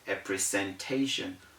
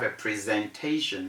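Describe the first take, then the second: First: The middle consonant is an s sound. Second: The middle consonant is a z sound. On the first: The speaker calls it wrong. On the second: The speaker calls it right. "we have"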